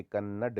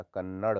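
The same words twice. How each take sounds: First: कन्नड़ ending in a stopped retroflex d; no flap at the end of कन्नड़; hard d. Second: कन्नड़ ending in a flapped ड़. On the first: Teacher shows the error, कन्नड़ with hard ड. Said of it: "नहीं होता". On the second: Teacher corrects it, कन्नड़ with flap. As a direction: flick the tongue at the end of कन्नड़. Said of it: "होता है". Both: Shown as a demonstration.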